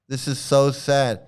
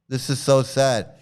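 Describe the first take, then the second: No difference in how they are said.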